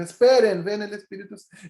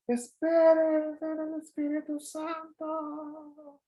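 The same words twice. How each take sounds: First: Said in the usual way. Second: Stretched very slow and higher, fading away; fading as he rises. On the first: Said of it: "Y dijo". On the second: Retold or imitated. Jesus calling down while rising away into the cloud, fading slowly. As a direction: call it out drawn out, voice trailing off into the sky. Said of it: "me imagino a ese Jesús subiendo y dice".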